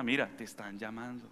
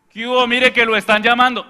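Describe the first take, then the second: First: Soft, kind, lower voice; walk over and tell them gently; gentle request. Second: Loud, high call; yelling. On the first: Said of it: "ir hasta la persona". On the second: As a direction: yell that the phone is for them. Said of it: "No, ir hasta la persona". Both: Retold or imitated.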